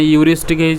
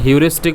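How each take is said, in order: First: The word begins with no h sound. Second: The word begins with an h sound. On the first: "silent एज" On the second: "एच सहित"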